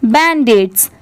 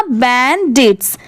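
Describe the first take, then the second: First: Said in the usual way. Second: बैंडिट्स slowly, बैन then डिट्स; parts joined slowly. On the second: Shown as a demonstration. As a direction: stretch both syllables of बैंडिट्स. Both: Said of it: "दोनों मिला देंगे".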